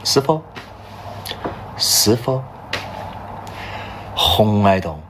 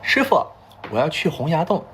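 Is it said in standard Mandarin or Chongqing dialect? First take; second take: Chongqing dialect; standard Mandarin. First: It is said fluently in the Chongqing dialect. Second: It is said with an outsider's standard Mandarin accent.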